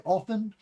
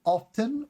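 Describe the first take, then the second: First: "often" without T, off-en; silent T. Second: "often" with the T, off-ten; higher, clear T in often; T pronounced. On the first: Teacher offering the other choice, silent-T pronunciation. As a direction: leave the T out of often. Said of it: "or if you say often". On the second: Teacher contrasting if you say the T, pronounced T. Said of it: "If you say the T". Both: Shown as a demonstration.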